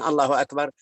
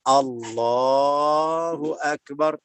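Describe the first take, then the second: First: The phrase is said short and quick. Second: The phrase is said long and drawn out. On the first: The speaker calls it wrong. "Jangan Allahu Akbar, jangan gini" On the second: The speaker calls it right. "harus seperti takbiratul ihram ... panjang, harus panjang"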